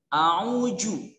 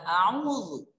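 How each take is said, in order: First: The middle consonant is a 'j' sound. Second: The middle consonant is a 'dh' sound. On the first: The speaker calls it wrong. "zal dengan jim" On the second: The speaker calls it right. "Padahal yang sebenarnya adalah a'udzu"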